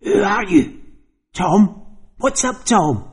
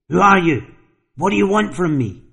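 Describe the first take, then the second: First: High, rasping voice of someone else; rasping possessed voice. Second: Frantic shout. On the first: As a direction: rasp it out like a stranger inside him. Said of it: "spoke with a rasping voice that seemed to come from someone else". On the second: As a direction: call out wildly into the empty hall. Tom shouts into the hallway. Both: Acted.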